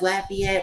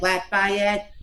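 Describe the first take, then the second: First: It is pronounced the way locals say it. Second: It is pronounced the way outsiders say it. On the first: People from the area say it this way. The speaker calls it right. "We go as Lafayette" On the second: People from elsewhere say it this way. The speaker calls it wrong. "They go like Lafayette"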